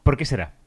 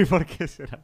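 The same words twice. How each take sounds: First: Said in the usual way. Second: Slow, laughing through the words. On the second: Acted. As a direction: chuckle the question out. Repeats the joke line laughing.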